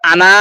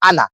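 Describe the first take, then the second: First: The final vowel is drawn out long. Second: The final vowel is kept short. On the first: The speaker calls it wrong. "তাহলে তো আনা এরকম বলা উচিত ছিল" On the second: The speaker calls it right. "আনা এইভাবে বলতে হবে"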